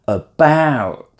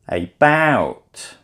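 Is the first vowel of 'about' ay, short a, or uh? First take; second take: uh; ay. First: The first vowel is a weak uh sound. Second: The first vowel sounds like the letter A. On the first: The speaker calls it right. "It's the uh sound" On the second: The speaker calls it wrong. "If it was like the letter, it would be about"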